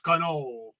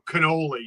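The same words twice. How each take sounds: First: The final vowel sound is dropped. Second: The final vowel sound is pronounced. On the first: The speaker calls it right. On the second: The speaker calls it wrong.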